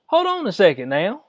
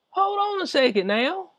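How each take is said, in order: First: Said in the usual way. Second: Mocking high-pitched hold-up; incredulous higher repeat. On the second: Repeats the phrase in disbelief.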